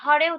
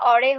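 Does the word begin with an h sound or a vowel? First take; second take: h sound; vowel. First: The word begins with a clear h sound. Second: The word begins directly with a vowel. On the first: The speaker calls it right. "হরে উচ্চারণটা" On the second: The speaker calls it wrong. "অরে হয়ে যায়"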